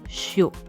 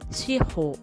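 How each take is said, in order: First: The word is run together as one syllable. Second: The word is split into two separate syllables. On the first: The word means salt. The speaker calls it wrong. "on prononce shiho en une seule syllabe" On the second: The word means four directions. The speaker calls it right. "c'est deux syllabes, shi et ho"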